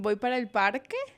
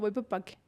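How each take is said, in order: First: Every consonant is clearly pronounced. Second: Several consonants like s, r and l are dropped. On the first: "en vez de decir"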